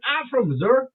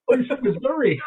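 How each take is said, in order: First: Put-on Southern accent with Missouri said as "Missoura"; deep Southern accent. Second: Put-on raised-pitch disbelief in own accent; surprised. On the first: Stranger answering where he is from, imitated deep Southern accent. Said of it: "deep accent". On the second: Diner reacting to the stranger's hometown, retold surprise. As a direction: repeat it back as an astonished question, Missouri said plainly. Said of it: "I've never heard anybody talk like that".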